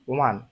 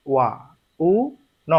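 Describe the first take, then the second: First: "one" run together as one quick syllable; said fast. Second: "ওয়া", "উ", "ন" spaced out as three separate syllables; said slowly. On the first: Teacher showing students the fast reading, blended quickly. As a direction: say "one" quickly in a single breath. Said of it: "fast বললে এটা কি?". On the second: Teacher showing students the slow reading, broken into syllables. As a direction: pull "ওয়া উ ন" apart slowly, one sound at a time. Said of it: "আর যদি যে slowly বলি". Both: Shown as a demonstration.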